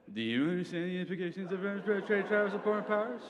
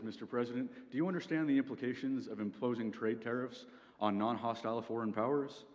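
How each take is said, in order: First: High, dopey parroting of the question; dumb voice. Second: Said in the usual way. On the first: Shown as a demonstration. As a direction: repeat it back like a clueless dimwit. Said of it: "repeating the question you've just been asked in a dumb voice". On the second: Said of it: "Secretary of State walks in".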